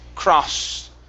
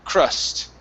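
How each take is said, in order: First: The vowel is an open 'ah' sound. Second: The vowel is a short 'uh' sound. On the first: The speaker calls it wrong. "you're saying craw, cross, with an ah sound" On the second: The speaker calls it right. "It's an uh sound"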